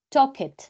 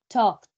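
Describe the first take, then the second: First: The ending is an extra syllable. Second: The ending is a plain t sound. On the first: The speaker calls it wrong. "Yo no digo talk, talk it" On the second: The speaker calls it right. "esta terminación ed suena como T. Entonces yo digo talked"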